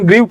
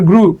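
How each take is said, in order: First: The vowel glides from 'ee' into 'oo'. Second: The vowel is a plain 'oo' sound. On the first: The speaker calls it wrong. "আমি আজীবন গ্রিউ পড়ে আসছি" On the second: The speaker calls it right. "এটার উচ্চারণ হলো sir গ্রু"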